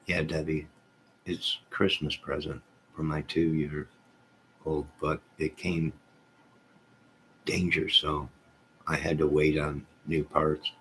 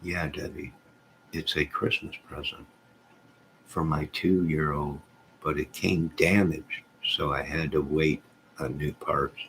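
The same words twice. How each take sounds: First: Misread chat message. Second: Said in the usual way. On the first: Real, not acted. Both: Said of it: "Oh, wait".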